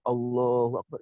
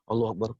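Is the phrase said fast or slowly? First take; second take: slowly; fast. First: The phrase is said slowly and calmly. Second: The phrase is said quickly and hurriedly. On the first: The prayer is performed with calm contemplation. The speaker calls it right. "itu slow saya" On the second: The prayer is driven by restless desire. The speaker calls it wrong. "Enggak gitu, itu kan nafsu ammaroh"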